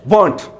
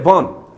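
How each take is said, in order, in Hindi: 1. अंतिम t ध्वनि स्पष्ट रूप से उच्चारित होती है। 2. अंतिम t ध्वनि पूरी तरह छोड़ दी जाती है। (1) "they don't say वांट" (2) "they just say वॉन"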